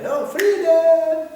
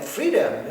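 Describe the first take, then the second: First: Freedom stretched slow, high and loud; shouted freedom. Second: Said in the usual way. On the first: Shown as a demonstration. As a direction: cry it out like a hippie anthem.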